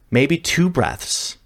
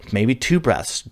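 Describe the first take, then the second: First: Two stretched out slowly and lifted; stress on two. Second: Said in the usual way. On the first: Shown as a demonstration. A coach stressing how few breaths it takes. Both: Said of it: "that's all it takes".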